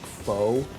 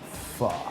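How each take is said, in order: First: It is pronounced the common American way. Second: It is pronounced the native, non-American way. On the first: The speaker calls it wrong. "a lot of Americans think, okay, I'm supposed to pronounce it like pho" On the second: The speaker calls it right. "but it's pronounced pho"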